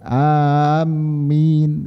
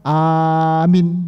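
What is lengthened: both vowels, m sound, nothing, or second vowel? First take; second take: m sound; nothing. First: The m sound is doubled and held. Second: Both vowels are short and clipped. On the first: "mimnya ditasydid, ini tidak boleh" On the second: "pendek, nunnya, ya-nya dibuang"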